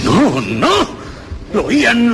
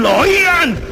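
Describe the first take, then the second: First: Lo oían pushed higher, alarmed; sudden realization climbing up; rising alarm. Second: Lo oían leaping much higher, almost shrieked; near-shriek. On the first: The murderer realizing the officers hear it, alarmed. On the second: The murderer sure the officers hear it, near-shrieking. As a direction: panic breaking through. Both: Acted. Convencido de que lo oyen.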